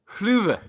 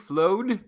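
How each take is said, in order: First: It is said with a rounded vowel, like 'fluve'. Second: It is read like English 'flowed'. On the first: The speaker calls it right. "is fluve" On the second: The speaker calls it wrong. "the last word that looks like some sort of like floaty, flowed"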